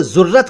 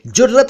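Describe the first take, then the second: First: जुर्रत said as "zurrat"; wrong z sound. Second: जुर्रत said as "jurrat"; correct j sound. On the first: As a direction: begin जुर्रत with z instead of j. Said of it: "मत कहिए". (जुर्रत का ग़लत उच्चारण, ज़ से) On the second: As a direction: begin जुर्रत with j, not z. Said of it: "जुर्रत ही कहिए". (जुर्रत का सही उच्चारण, ज से) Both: Shown as a demonstration.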